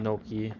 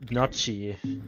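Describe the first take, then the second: First: It is said with a plain, non-German pronunciation. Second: It is said with a German-style pronunciation. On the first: "instead of saying Noki" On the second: "the German way of speaking"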